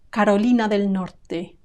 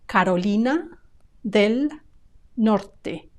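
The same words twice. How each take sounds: First: The three words run together like one word. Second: The three words are said separately with pauses.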